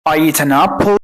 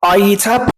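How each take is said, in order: First: "an" linked into "apple" as "a-napple"; أداة واضحة. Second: "I eat apple" with the article swallowed; أداة مختفية. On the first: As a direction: let the N of "an" ring into "apple". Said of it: "لو أنا قلت لك". ("an apple" بحرف N واضح موصول) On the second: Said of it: "زي مثلًا لما تيجي تقول". ("I eat apple" والأداة مدغمة لا تُسمع) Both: Shown as a demonstration.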